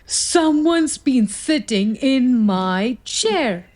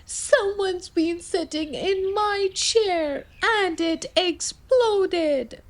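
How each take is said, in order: First: Slow, a hint of a growl; mild papa bear growl. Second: Much higher, soft, crying cub; wailing baby bear. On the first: Papa Bear finding his chair sat in, slow mild growl. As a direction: rumble it out slowly as Papa Bear. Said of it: "Papa Bear growled". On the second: Baby Bear wailing over his broken chair. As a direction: wail it like a little cub, slowing at the end. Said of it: "Baby Bear wailed". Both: A narrator's reading.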